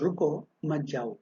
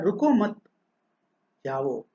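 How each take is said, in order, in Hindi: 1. रुको के बाद एक छोटा विराम है। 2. मत के बाद एक छोटा विराम है। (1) "रुको कहकर कुछ रुकना" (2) "मत कहकर कुछ रुका है"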